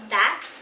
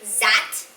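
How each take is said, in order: First: The word begins with a th sound. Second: The word begins with a z sound. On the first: The speaker calls it right. "not that" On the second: The speaker calls it wrong. "I used to say Z instead of the th, like zat"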